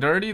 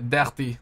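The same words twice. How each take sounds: First: It is said in a plain accent. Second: It is said in a French accent.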